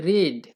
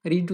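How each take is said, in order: First: রেড said as "red" with a short e, a bit louder; past-tense pronunciation. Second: রিড said as "reed" with a long ee; present-tense pronunciation. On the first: Teacher to learners, marking the past form: রেড as "red". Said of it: "past form ... উচ্চারণ হবে". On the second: Teacher to learners, showing the present form: রিড as "reed". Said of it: "present ফর্মে থাকলে". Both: Shown as a demonstration.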